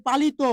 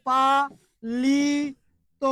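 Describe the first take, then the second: First: Said in the usual way. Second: পালিত as "paa... lee... to", each held; very slow teaching split of পালিত, ending on a long O; syllable-by-syllable demonstration. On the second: Shown as a demonstration. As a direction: stretch every syllable of পালিত with pauses between. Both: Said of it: "ও হয়ে যাবে".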